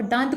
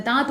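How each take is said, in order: First: दांत said with a strongly nasalised, full n before the t; दांत with a fully sounded nasal, as the wrong form; heavy nasal dant. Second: दांत said with only a faint nasal vowel, mostly from the mouth; barely nasalise the aa in दांत, no n; light nasal daant. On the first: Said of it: "इसमें नाक का भरपूर उच्चारण करेंगे तो दांत हो जाएगा". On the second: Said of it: "हल्का सा उच्चारण करते हैं, मतलब नाक का कम इस्तेमाल". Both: Shown as a demonstration.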